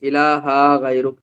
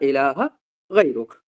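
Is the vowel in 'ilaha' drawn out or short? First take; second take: drawn out; short. First: The vowel in ilaha is drawn out long. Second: The vowel in ilaha is kept short. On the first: The speaker calls it wrong. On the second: The speaker calls it right.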